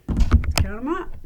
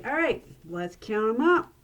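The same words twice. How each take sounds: First: "count 'em up" said louder and slow; louder showman call. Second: Said in the usual way. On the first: Shown as a demonstration. Magician urging the audience to count, loud and slow. Revealing the pennies.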